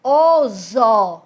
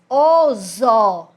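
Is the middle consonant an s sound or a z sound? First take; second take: z sound; z sound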